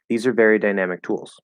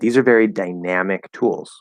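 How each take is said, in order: First: It is said in a plain, flat way. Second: It is said with lively, varied, expressive feeling. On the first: "I could have said" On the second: "So I'm giving a little feel to that"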